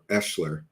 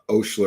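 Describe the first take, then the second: First: It starts with an 'e' and has 'sh'. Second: It starts with an 'o' and has 'sh'. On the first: "or Eschler" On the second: "not Oshler"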